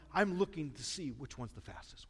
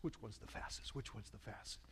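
First: Said in the usual way. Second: Fading whisper to himself; a whisper that trails away to nothing; whispered muttering. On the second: Retold or imitated. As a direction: mutter it under your breath as you scan the gates. Scanning gates, muttering to himself.

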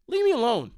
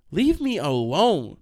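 First: Loud, high, quicker protest; exasperated outburst. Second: Loud, slow, stretched-out exasperation; exasperated. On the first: TikTok guy to clingy classmates, high sudden exasperation. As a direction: fire it off higher, all in one burst. Rejecting the hangers-on, repeated. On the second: TikTok guy to clingy classmates, slow loud exasperation. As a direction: drag out ALONE in a loud protest. Rejecting the hangers-on, first take. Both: Retold or imitated.

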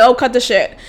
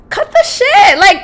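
First: Said in the usual way. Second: Much higher, shouted; exasperated outburst. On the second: Real, not acted. Fed up with the ex's empty promises, shouted. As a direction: snap it out in disbelief.

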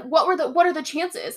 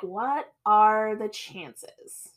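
First: Higher-pitched mock innocent question; mocked clueless boyfriend. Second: Very slow, drawn-out question; pondering girlfriend. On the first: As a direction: imitate the boyfriend playing innocent. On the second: Retold or imitated. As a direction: stretch out each word as if weighing it up. Girlfriend pondering, in retold scene.

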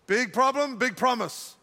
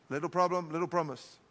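First: "big problem" firm and full-voiced; big, emphatic delivery. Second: Low, soft and diminished; small, quiet delivery. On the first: Preacher teaching how promise matches the problem, big emphatic delivery. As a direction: give "big" full weight. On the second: Preacher teaching how promise matches the problem, small quiet delivery. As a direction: make "little" sound small, dropping pitch and volume. Contrasts little with big. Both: Shown as a demonstration.

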